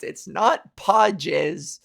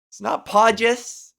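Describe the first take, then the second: First: Not stretched and slow; slow, deliberate correction; stress on not. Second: Podgis said louder with a soft J sound; emphatic mispronounced Podgis. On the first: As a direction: lean hard on the word not. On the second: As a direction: repeat the wrong soft G Podgis. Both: Shown as a demonstration.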